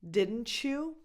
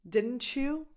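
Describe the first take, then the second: The two takes are said the same way.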